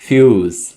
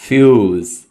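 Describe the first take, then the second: The two takes are said the same way.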